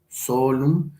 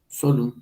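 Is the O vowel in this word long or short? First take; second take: long; short. First: The O vowel is held long. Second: The O vowel is kept short. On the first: "aquí la O sería larga" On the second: "aquí sería breve"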